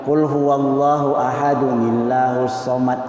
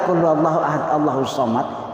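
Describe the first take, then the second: First: Ahad takes an added 'un' ending, joined to Allahus. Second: Ahad ends plainly, then Allahu follows in one breath. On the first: The recitation is correctly joined and can be gifted. The speaker calls it right. "Bagaimana caranya wasal?" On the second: The recitation earns no reward. The speaker calls it wrong. "satu napas kita baca ... sia-sia"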